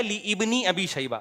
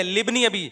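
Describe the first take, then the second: First: "لابن" said slowly as li-ibni, alif sounded; mock-careful li-IBNI in "لابن"; wrong split pronunciation. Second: "لابن" run together as libni, alif silent; quick, single-piece libni for "لابن"; correct joined pronunciation. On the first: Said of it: "ابن ابی شیبہ نہیں ہے، لابن ابی، یہ الف silent ہے". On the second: Shown as a demonstration. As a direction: join li straight onto bni in "لابن". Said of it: "یہ الف سائلنٹ ہے".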